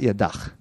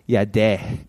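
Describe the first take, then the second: First: The word ends with a final consonant sound. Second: The word ends with an open vowel sound. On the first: The speaker calls it wrong. "It's actually not yadach" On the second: The speaker calls it right. "It's yadeh"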